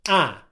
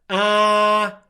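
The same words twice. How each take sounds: First: The vowel is kept short. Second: The vowel is held long. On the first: The speaker calls it right. "It's a short English vowel sound" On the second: The speaker calls it wrong. "Is it a long English vowel sound?"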